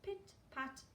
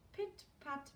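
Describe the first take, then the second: No difference in how they are said.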